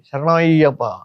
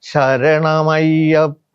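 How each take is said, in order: First: The call is short and hurried. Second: The call is long and drawn out. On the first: The speaker calls it wrong. "ഇതാരോ തല്ലി ഓടിക്കുന്നത് മാതിരി" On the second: The speaker calls it right. "അത്രയും ദൈർഘ്യത്തിൽ വേണം ശരണം വിളിക്കാൻ"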